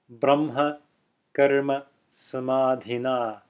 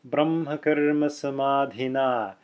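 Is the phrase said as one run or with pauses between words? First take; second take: with pauses; one run. First: Short pauses separate each of the words. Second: The words run together with no pauses. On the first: The speaker calls it wrong. "not ... If you put those pauses in between the words" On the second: The speaker calls it right. "as if it were written as one long word with no spaces in it"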